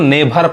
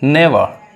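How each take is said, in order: First: The middle consonant is an aspirated 'bh' sound. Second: The middle consonant is a soft 'v' sound. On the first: The speaker calls it wrong. "बहुत लोग इसको नेभर पढ़ते हैं" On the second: The speaker calls it right. "इसको हम नेवर पढ़ते हैं"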